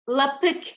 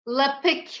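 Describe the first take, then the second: The two takes are said the same way.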